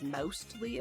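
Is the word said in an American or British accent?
British. The word is said in a British accent.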